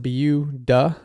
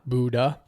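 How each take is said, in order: First: It is not said like the name Buddha. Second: It is said like the name Buddha. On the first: The speaker calls it right. "which is pronounced Buda" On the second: The speaker calls it wrong. "not Buddha, which uh, trips up a lot of newcomers"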